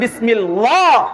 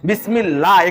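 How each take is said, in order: First: The L sound is thick and heavy. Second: The L sound is thin and light. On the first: The speaker calls it wrong. "কেউ যদি বলে বিসমিল্লাহ তাহলে সেটা ভুল হবে" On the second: The speaker calls it right. "এখানে আল্লাহ শব্দের পূর্বে জের আছে"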